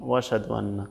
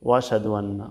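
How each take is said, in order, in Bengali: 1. হামজা বাদ যায়, শব্দগুলো একসাথে মিশে যায়। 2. হামজা বাদ যায়, শব্দগুলো একসাথে মিশে যায়।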